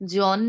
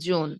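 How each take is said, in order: First: The first vowel sounds like 'aw'. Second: The first vowel sounds like 'oh'. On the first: The speaker calls it wrong. "জন না বলে" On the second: The speaker calls it right. "বলবো জোন"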